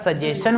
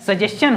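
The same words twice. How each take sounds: First: "सजेशन" ending in plain -shan; common mispronunciation. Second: "सजेशन" ending in -s-chan; correct pronunciation. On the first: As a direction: say "सजेशन" with sh, no ch sound. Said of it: "सभी को क्या बोलता है". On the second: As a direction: say "सजेशन" with a ch sound after the s. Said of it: "actually इसका pronunciation क्या होता है". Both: Shown as a demonstration.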